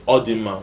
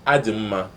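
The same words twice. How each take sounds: First: "Ọ dị mma" starting with an open "aw" sound; "Ọ dị mma" with an O at the front; wrong first vowel. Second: "Ọ dị mma" begun with "ah" in place of O; "Ọ dị mma" turned into "Adị m mma"; corrected first vowel. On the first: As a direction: say "Ọ dị mma" as "aw-dim-ma". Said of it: "You don't say". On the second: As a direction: say "Ọ dị mma" as "ah-dim-ma". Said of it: "the correct one is". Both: Shown as a demonstration.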